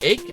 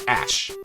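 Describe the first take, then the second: First: It ends with a long A and K sound. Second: It ends with a short A and SH sound. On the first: "the A C H E could be ache" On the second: "or ash. So if it's ash like a mustache"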